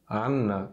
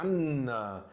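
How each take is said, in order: First: The N sound is short and single. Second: The N sound is held long and doubled. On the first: "sem estresse nenhum" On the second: "a gente tem que pronunciar estressando"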